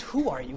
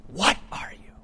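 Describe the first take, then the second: First: Said in the usual way. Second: Hushed question with "What" hit hard, the rest falling to a whisper; stress on What. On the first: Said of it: "He says, not just". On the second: Shown as a demonstration. Preacher corrects who to what, stressed "What" in a hushed voice. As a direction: punch "What" and let "are you" drop away breathily. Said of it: "not just, "Who are you?".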